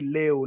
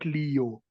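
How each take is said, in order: First: The e sounds like the vowel in bet. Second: The e does not sound like bet. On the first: The speaker calls it right. "The letter E in Swahili is being pronounced like in the word bet" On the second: The speaker calls it wrong. "not Leo"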